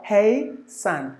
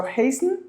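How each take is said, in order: First: "hey son" in two slow, separate syllables; schwa put in. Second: "hasten" as HAYS-n, no vowel before the N; S-N run together. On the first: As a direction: say "hasten" as HAY... SUN. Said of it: "put the schwa in between". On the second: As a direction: say "hasten" quickly joined, S straight into N. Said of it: "one syllable or two syllable". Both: Shown as a demonstration.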